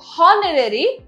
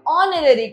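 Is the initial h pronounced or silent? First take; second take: pronounced; silent. First: The word starts with an h sound. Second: The word starts with a vowel, no h. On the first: The speaker calls it wrong. "हॉनरेरी बिल्कुल नहीं कहते" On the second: The speaker calls it right. "हम ऑनरेरी कहते हैं जिसके अंदर एच हमारा again silent होता है"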